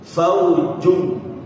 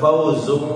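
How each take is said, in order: First: The middle consonant is a 'j' sound. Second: The middle consonant is a 'z' sound. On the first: The speaker calls it right. "Yang pertama ada huruf jim. Faujun, jung ya" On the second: The speaker calls it wrong. "Jangan disamakan dengan huruf za, bukan fauzum"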